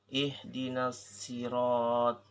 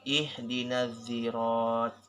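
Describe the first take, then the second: First: The word begins with a plain, light s. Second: The word begins with a z-like sound. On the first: "bisa diubah dengan sin" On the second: "bisa diubah dengan huruf zo"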